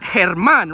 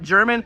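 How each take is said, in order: First: The name begins with a breathy H sound. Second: The name begins with a J sound. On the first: The speaker calls it right. "It's Herman, right?" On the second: The speaker calls it wrong. "Not German. All of you call him German"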